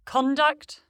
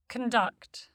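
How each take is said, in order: First: "conduct" as a noun, stressed CON with full vowel; stress on first syllable. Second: "conduct" as a verb, con-DUCT with reduced first vowel; stress on second syllable. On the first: Pronunciation lesson on noun-verb pairs, "conduct" stressed on CON. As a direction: say "conduct" as CON-duct, rising. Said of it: "stressed on the prefix". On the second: Pronunciation lesson on noun-verb pairs, "conduct" stressed on DUCT. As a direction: say "conduct" as c'n-DUCT, falling. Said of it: "stressed on the stem". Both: Shown as a demonstration.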